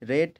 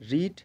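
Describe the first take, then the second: First: The vowel is short, like 'red'. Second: The vowel is long, like 'reed'. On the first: It is the past form of the verb. "তিনটি ফর্মের কিন্তু উচ্চারণ আলাদা আলাদা" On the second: It is the present form of the verb. "তিনটি ফর্মের কিন্তু উচ্চারণ আলাদা আলাদা"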